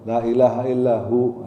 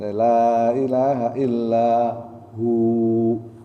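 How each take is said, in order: First: The final vowel of hu is cut short. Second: The final vowel of hu is held long. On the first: The speaker calls it wrong. "bukan ... itu juga salah" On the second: The speaker calls it right. "Hu-nya juga panjang"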